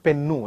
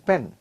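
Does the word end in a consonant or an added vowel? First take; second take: added vowel; consonant. First: An extra vowel is added after the final consonant. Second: The word ends cleanly on the final consonant. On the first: The speaker calls it wrong. "for everything they add the word u" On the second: The speaker calls it right. "it is pen"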